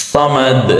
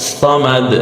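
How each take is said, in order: Both takes have the same delivery.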